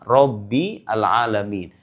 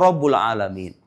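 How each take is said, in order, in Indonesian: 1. Kata Rabb diakhiri dengan vokal i. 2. Kata Rabb diakhiri dengan vokal u. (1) "Kenapa dibaca Rabbi?" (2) "Tapi menurut kaidah ilmu nahu itu salah"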